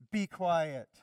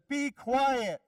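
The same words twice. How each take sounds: First: Firm, louder command without shouting; stern order with firm weight. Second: High, loud order to silence a demon; forceful, raised-voice command; stern shouted command. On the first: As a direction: give a controlled, stern rebuke. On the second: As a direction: shout it as a sharp rebuke. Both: Acted. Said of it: "Jesus said sternly".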